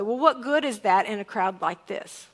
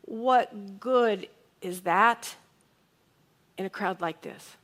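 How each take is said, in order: First: A brisk, dismissive rhetorical question; dismissive reading. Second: Slow, wondering reading. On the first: Preacher shows congregation his usual reading of Andrew's question, dismissive. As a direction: toss it off as one quick, doubtful question. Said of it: "I've read this this way". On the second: Preacher offers congregation another reading of Andrew's question, slow and wondering. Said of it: "what if he said it this way?". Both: Shown as a demonstration.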